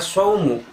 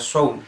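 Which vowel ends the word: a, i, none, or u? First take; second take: u; none. First: The word ends with the vowel u. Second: The word ends with no final vowel. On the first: The speaker calls it right. "dibaca saumu" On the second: The speaker calls it wrong. "apalagi dibaca saum, disukunkan"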